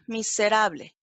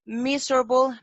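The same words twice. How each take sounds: First: Spanish miserable, stress on RA; Spanish pronunciation. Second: Miserable said the English way, MIZ-er-bul, stress on the first syllable; English Miserable, ending in -bul; English pronunciation. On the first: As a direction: say miserable in Spanish, mi-se-RA-ble, every vowel clear. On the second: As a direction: say Miserable as English MIZ-ruh-bul, swallowing the middle vowel. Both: Shown as a demonstration. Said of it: "English word then Spanish gloss".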